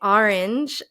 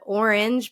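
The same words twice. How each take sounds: First: The first vowel sounds like 'ar'. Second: The first vowel sounds like 'or'. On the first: The speaker calls it wrong. "R versus or" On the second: The speaker calls it right. "R versus or"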